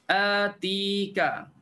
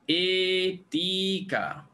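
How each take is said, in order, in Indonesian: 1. Vokal pertama ialah 'a' terbuka biasa. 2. Vokal pertama condong ke 'e'.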